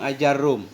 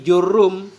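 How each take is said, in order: First: The word starts with a vowel sound. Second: The word starts with a consonant sound.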